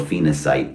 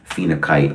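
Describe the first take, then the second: First: The third consonant is an s sound. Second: The third consonant is a k sound. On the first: "it's said either way" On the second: "it's said either way"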